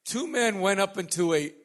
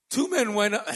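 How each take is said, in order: First: Said in the usual way. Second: High, loud opening that gives way; a cappella voice. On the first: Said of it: "Usually like to hear the baritone". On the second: Real, not acted. Preacher opens the scripture reading, high a cappella voice. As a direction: start the reading loud and pitched too high. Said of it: "That was my a cappella voice".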